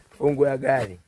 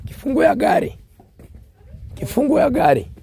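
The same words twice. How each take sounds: First: Said in the usual way. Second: Hoarse, high, loud calling; strained hoarse shout for the keys; frog voice. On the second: Real, not acted. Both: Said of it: "sorry for my frog voice".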